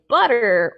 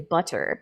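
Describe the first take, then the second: First: The middle T is a quick flap. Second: The middle T is a solid T. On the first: "that flap" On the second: "a solid T"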